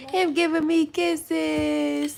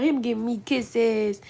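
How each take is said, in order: First: Put-on drawn-out slow baby talk; slow cooing. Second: Said in the usual way. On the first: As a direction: gush at the baby slowly. Cooing repeat.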